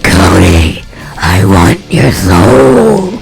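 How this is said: It is said in a creepy villain voice.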